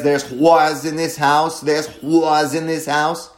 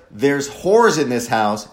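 First: "whores" said like "wars", with an open ah vowel; slow quote with "whores" bent toward "wars"; mock the lyric, "whores" turned into "wahrs"; altered whores. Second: Said in the usual way. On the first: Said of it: "sounds a little bit like either a really extreme Eastern Coast accent". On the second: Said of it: "some little digital signal processing so that instead of".

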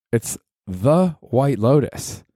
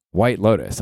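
First: The White Lotus slow, higher, leaning on "The"; stress on THE. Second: Said in the usual way. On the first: Shown as a demonstration. Correcting fans of the HBO show, stressing "The" slowly. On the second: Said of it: "I'm talking about the HBO show".

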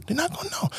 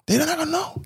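First: Softer repeat. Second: Said in the usual way. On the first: Real, not acted.

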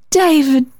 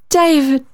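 First: High, eager calling of a name. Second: Eager call repeated. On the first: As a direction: call David out, longing for a listener. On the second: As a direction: call once more, wanting to be heard. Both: A narrator's reading. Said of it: "she cried in her need of audience".

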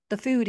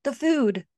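First: Breathless, weak gasp of the words; a touch of a dying man's gasp. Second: Louder and higher, urgent cry; mild desperate outburst. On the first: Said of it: "he gasped". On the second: Desperate repeat of the plea. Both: A narrator's reading.

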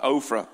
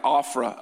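First: Ophrah said OH-fruh, with a long O; sounded-out name. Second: Ophrah said AW-fruh, with an open first vowel; phonetic readout. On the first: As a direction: round the first vowel of Ophrah into OH. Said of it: "so I can say it's like". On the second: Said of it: "wrote it down in my terms". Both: Shown as a demonstration.

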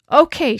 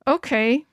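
First: Firm, loud, falling "Okay" that settles it; decide it with one word; decisive. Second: A grudging "Okay," pushed through clenched teeth, rising at the end. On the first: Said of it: "she said". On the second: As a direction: swallow the anger and force out "Okay,". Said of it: "I said through clenched teeth". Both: A narrator's reading.

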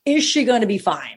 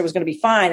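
First: "Is" pushed up, doubting the promise; sceptical stress on Is. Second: Said in the usual way. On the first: Retold or imitated. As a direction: lean on "Is" as a pointed question. She doubts the claim just told.

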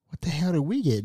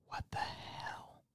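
First: Hushed but voiced aside, retold; softly mouthed aside. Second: Slow, barely audible whisper; mouthed whisper. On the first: Retelling words mouthed to a sister, soft voiced aside. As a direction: say it under the breath, with some voice. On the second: Retold or imitated. Mouthing to a sister a couple rows back, slow whisper. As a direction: mouth it silently across the room, almost no voice.

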